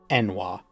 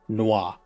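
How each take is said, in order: First: The name begins with a vowel before n. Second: The name begins directly with an n sound. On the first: The speaker calls it wrong. "instead of Enwa" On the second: The speaker calls it right. "it would make more sense if it was pronounced noir"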